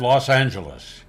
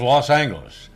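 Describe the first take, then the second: First: The G is pronounced soft, like a J. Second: The G is pronounced hard, as in go. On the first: "K F I always said" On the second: "their official station policy was Los Angeles ... with a hard G"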